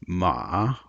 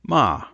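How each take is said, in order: First: The pitch dips down and comes back up. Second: The pitch starts high and falls. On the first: The word means horse. "what we can call a dipping tone" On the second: The word means scold. "it's a high falling tone"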